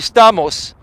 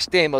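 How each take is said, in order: First: The name is said with Greek pronunciation. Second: The name is said with American pronunciation. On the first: This is the original form of the name. "It's actually Stamos" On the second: This is the adapted form most people use. "we just say Stamos because that's, you know, what everyone says"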